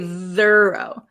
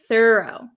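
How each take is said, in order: First: The first th sound is voiced. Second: The first th sound is voiceless. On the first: The speaker calls it wrong. "We don't say thorough" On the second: The speaker calls it right. "thorough does not"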